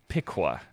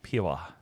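First: The name is said with a k sound. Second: The name is said without a k sound. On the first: "Am I pronouncing that correctly" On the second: "or is the Q silent?"

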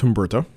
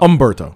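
First: The initial H is pronounced aloud. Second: The initial H is silent. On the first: The speaker calls it wrong. "Nope. That first one. Dude, you can't pronounce the H" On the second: The speaker calls it right. "There you go"

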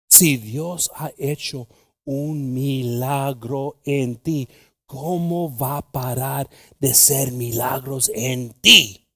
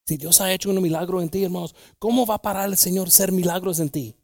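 First: It is said slowly. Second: It is said at normal speed.

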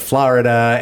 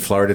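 First: It is said in a Spanish-style accent. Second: It is said in a plain American accent.

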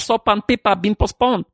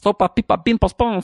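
First: The phrase is said at a normal pace. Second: The phrase is said quickly.

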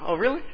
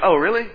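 First: It is said warmly, with a smiling, happy tone. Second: It is said flatly, with a reluctant, dismayed tone. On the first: The visit is welcome news. "And you smile" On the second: The visit is unwelcome news. "Others, you hear that they're coming, like"

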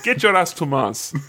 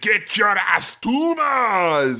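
First: It is delivered flatly with little energy. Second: It is delivered loudly with lots of energy.

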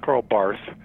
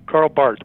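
First: The name ends with a th sound. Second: The name ends with a hard t sound. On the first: The speaker calls it wrong. "Not Karl Barth. ... they don't go with the TH diphthong" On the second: The speaker calls it right. "They just come across as a straight on hard T"

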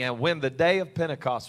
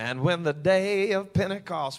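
First: It is read in an ordinary, plain voice. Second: It is read in a dramatic, booming preacher voice.

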